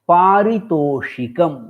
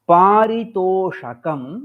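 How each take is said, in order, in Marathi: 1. sh नंतर i आवाज येतो. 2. sh नंतर i आवाज नाही. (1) "द्वितीयं रूपं पारितोषिकम् इत्येतदेव शुद्धम्" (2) "इकाररहितं रूपम् असाधु"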